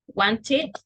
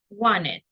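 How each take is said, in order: First: The T sound is clearly pronounced. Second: The T sound is dropped. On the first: "Some people say wanted with the T" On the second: "and some people say wanted, like this"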